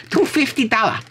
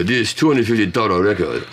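First: Put-on very high, caricatured Taiwanese accent; shout-like mock Taiwanese accent, pitched way up. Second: Mock Japanese-accented English. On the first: Joking about finding the record in Taiwan, high mock Taiwanese accent. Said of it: "If I was in Taiwan". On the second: Imitating the clerk at Disc Union in Japan, Japanese accent. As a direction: quote the price in a put-on Japanese accent. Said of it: "I love doing accents".

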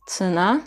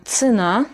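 First: Цена with the first vowel reduced toward ı, stressed на; model repeat. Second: Цена, slow, stress on на; slow model word. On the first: (цена, e yerine ı sesi) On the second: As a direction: draw out цена slowly as a model. (цена yavaşça, vurgu son hecede) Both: Shown as a demonstration. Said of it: "A vurgulu, Y vurgusuz".

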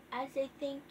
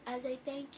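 The two takes are said the same way.

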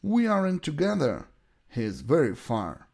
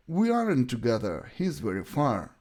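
Both takes have the same delivery.

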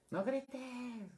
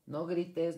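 First: High-pitched shrieked no grites; teacher mimicking a mother yelling at her child not to yell; mock yelled command. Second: Firm, slightly raised parent command; mild imitation of a mom telling her kid not to shout; mock parent scolding. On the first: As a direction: shriek it like a frazzled mom, ironically yelling. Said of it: "Más gritando". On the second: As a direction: scold a child briefly, a bit higher and louder. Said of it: "todo se lo decimos en negativo".

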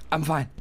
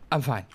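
Both takes have the same delivery.

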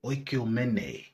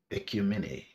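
First: Oikumene begun with a rounded O sound; slow Oikumene ending in "-ay"; alternative pronunciation. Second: Ecumene begun with a plain E sound; first pronunciation. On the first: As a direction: say Oikumene slowly as "oyk-yoo-men-ay". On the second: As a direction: say Ecumene as "ek-yoo-mi-nay". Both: Shown as a demonstration. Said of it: "Ecumene or".

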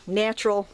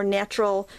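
First: Said in the usual way. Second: Natural said in an odd, bizarre-sounding accent; odd accent on a word. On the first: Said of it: "that's a weird". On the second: Real, not acted. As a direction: let natural slip into a strange put-on accent. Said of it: "I just said the bizarre accent there".

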